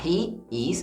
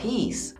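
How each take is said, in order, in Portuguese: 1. As duas palavras são ditas por extenso. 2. As duas palavras se juntam em uma única sílaba contraída. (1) "em vez de falar he is" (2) "a gente fala his"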